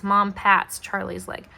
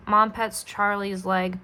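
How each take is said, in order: First: "pats" said with an A as in cat; corrected word. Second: "pets" said with an E as in bed; misread word. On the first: Reader corrects Mom's action, "pats" with open A. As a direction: clearly read "pats", open A vowel. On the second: Reader misreads Mom's action, "pets" with short E. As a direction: slowly read "pets", short E vowel. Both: Real, not acted. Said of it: "My apologies".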